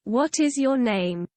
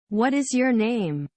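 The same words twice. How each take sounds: First: It is said in a British accent. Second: It is said in an American accent.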